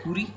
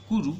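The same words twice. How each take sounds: First: "kuri" ending in a mistaken "ee" sound; wrong form. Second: "kuru" ending in an "oo" sound; correct form. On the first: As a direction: offer "kuri" as koo-REE, rising. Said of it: "No, we have to do it like". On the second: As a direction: model "kuru" as koo-ROO. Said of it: "we have to do it like". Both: Shown as a demonstration.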